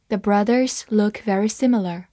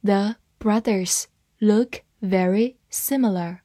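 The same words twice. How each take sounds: First: Said in the usual way. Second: Slow, word-by-word model reading; spaced out slowly for learners to follow. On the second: Shown as a demonstration. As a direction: read it slowly with a gap after each word. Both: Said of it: "慢慢来读".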